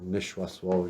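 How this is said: The word ends with an 'oh' vowel. This is how it is said at Red Lake. "if you go to Red Lake"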